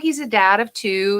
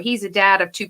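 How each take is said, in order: First: It is said warmly, with affection. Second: It is said flatly, like stating plain facts. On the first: The speaker likes this person. The speaker calls it right. "you talk about them very fondly" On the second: The facts are simply being stated. The speaker calls it wrong. "I'm just stating facts"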